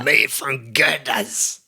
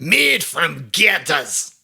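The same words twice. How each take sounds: First: Ad slogan voice. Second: Each word drawn out slowly; slow, clear slogan. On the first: Retold or imitated. Quoting old ad slogan. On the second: Shown as a demonstration. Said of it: "What is it?".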